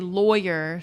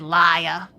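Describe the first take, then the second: First: The first syllable sounds like 'boy'. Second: The first syllable sounds like 'lie'. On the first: This is how the speaker says it. "I say lawyer, so it's boy" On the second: This is how an older relative says it. "my grandpa would say liar"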